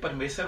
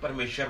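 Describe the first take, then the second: First: The word is said with a plain s sound. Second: The word is said with an sh sound. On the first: The speaker calls it right. "ਇੱਥੇ ਪਰਮੇਸ਼ਰ ਹੋਣਾ ਚਾਹੀਦਾ" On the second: The speaker calls it wrong. "ਨਾ ਕਿ ਪਰਮੇਸ਼ਰ ਮਾਰੇ"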